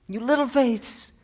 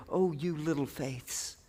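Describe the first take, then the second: First: Higher, slower, affectionate call; fond encouragement. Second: Soft, slow, fond murmur; tender endearment. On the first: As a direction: lift them up gently. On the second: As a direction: speak it like to a small child, softly. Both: Acted. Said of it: "This is a term of endearment".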